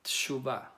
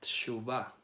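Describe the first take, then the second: First: The vowel after the first T is very short. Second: The same.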